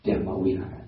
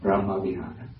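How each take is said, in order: First: It is said in a Burmese pronunciation. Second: It is said in a Cambodian pronunciation. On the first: "in Burmese pronunciation" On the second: "in Cambodia"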